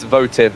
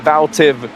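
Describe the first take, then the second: First: The first syllable has no L sound. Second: The first syllable has an L sound. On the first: The speaker calls it right. "it's Votiv, not Valtiv" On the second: The speaker calls it wrong. "I keep mispronouncing that"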